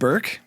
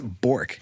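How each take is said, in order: First: The vowel sounds like the one in 'her'. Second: The vowel sounds like the one in 'for'. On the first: This is how the family says the name. "my family has always said Burke" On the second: This is how the spelling suggests saying it. "phonetically it's Bork"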